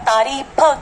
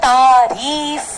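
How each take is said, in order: First: The word ends with a puffed p sound. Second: The word ends with an f sound. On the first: The speaker calls it wrong. "की जगह" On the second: The speaker calls it right. "तो वो तारीफ हो गया"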